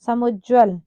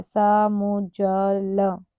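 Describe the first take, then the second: First: Said in the usual way. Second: समुज्ज्वल very slow, syllable by syllable; spelling it out. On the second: Shown as a demonstration. Teacher showing how it is written, समुज्ज्वल drawn out slowly. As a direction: stretch समुज्ज्वल into sa-mu-jjwa-la. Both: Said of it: "देखो कैसे लिखा है".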